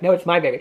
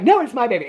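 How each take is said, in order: First: Understated mock bickering; retold rival's retort. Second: Higher-pitched mock bickering; retold insistent retort. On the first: Rival claims the baby back, understated retort. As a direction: answer back in an everyday pitch, mildly possessive. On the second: Mother disputes who owns the baby, mock insistent. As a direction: toss back the claim, pitched up. Two women argue over the baby.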